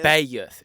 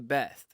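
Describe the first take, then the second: First: The name is drawled into two syllables. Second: The name is said as one short syllable. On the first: "we we're talking two syllables" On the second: "they don't say Beth"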